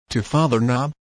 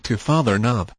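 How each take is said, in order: First: "To Father Knob?" echoed with a rising tune; questioning echo. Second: Said in the usual way. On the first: A narrator's reading. Girl echoes the suitor's words, questioning.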